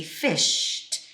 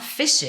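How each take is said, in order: First: FISHED as "fisht", straight into T; slow "fished", no second vowel; one-syllable ending. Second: FISHED as "fish-id"; wrong two-syllable ending. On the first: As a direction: run the SH of "fished" into a crisp T. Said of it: "you just say fished". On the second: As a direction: add a short-I syllable to "fished". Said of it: "It's not fished". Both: Shown as a demonstration.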